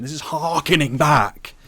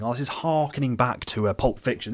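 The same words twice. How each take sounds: First: Slow, louder mock-pompous line; mocking drawl. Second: Said in the usual way. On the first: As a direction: draw it out to mock the cliché. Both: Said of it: "The phrase harkening back".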